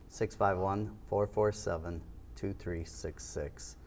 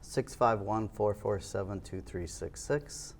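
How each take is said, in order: First: The number is said more slowly. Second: The number is said quickly.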